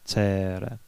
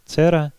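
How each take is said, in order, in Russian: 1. Гласный произносится долго. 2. Гласный произносится кратко. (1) "Пражане тянут гласные и там, где они краткие" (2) "не «цера»"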